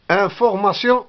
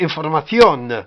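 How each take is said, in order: First: It is pronounced the French way. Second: It is pronounced the Spanish way. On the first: "Information en français" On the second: "En espagnol, c'est information"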